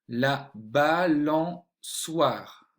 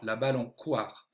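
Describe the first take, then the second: First: The middle consonant is an S sound. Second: The middle consonant is a K sound. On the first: The speaker calls it right. "la cédille pour bien entendre le son soit et non pas le son quoi" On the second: The speaker calls it wrong. "si j'oublie si la cédille, j'entendrai quoi"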